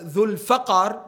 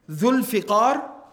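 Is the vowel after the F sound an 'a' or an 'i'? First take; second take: a; i. First: The vowel after the F is an 'a'. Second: The vowel after the F is an 'i'. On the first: "وَبِفَتْحِهِ" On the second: "بِكَسْرِ الْفَا"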